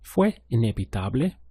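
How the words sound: It is said with question intonation. It asks a question. "Was it inevitable?"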